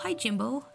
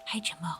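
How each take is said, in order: First: It is said aloud, not whispered. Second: It is said in a whisper.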